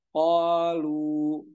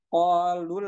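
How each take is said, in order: First: The vowel is held long before a stop. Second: The vowel is short, linked into the next word. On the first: The reader stops after this word. "ketika disuruh berhenti, berhenti di lu" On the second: The reader continues into the next word. "cara bacanya yang pertama dengan wasal"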